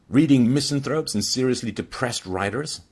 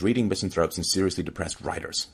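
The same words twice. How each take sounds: First: Mocking dad. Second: Mild mocking. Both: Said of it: "like mocking his son".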